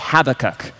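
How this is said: It is said the British or Canadian way. This is how people from the United Kingdom or Canada say it. "If you are from the United Kingdom or Canada, I will permit you to say Habakkuk"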